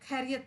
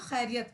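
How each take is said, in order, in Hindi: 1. यह एक सादी aspirated 'k' ध्वनि से शुरू होता है। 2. यह एक खरखराती 'kh' ध्वनि से शुरू होता है। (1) "खैरियत नहीं पढ़ेंगे। खैरियत सुनने में बड़ा बुरा लगता है" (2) "खे से खैरियत होता है। तो हम उसको खैरियत पढ़ेंगे"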